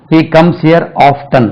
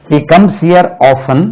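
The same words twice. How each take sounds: First: Often as OF-tun, slow sentence; T pronounced. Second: Often as OFF-un, no T, slow sentence; silent T. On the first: Teacher models the second option, often with audible T. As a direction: sound the T in often. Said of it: "இப்போ often also allowed". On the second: Teacher models the first option, often with silent T. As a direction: leave the T out of often. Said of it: "முதல்ல often தான் உச்சரிச்சிருந்தோம்". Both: Shown as a demonstration.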